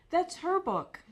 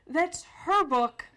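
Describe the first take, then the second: First: Insistent interruption. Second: "her" leaned on, slow and louder; insistent, stress on her. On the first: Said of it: "Sally interrupted him to say". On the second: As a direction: say "her" slowly and firmly, repeating it. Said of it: "She had to say". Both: Retold or imitated.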